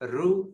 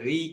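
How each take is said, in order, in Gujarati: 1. ṛ પછી 'u' જેવો સ્વર આવે છે. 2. ṛ પછી 'i' જેવો સ્વર આવે છે. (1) "આપણે રૂ જ રાખીએ" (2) "ઘણા બધા આમાં શું કરે છે રી કે છે"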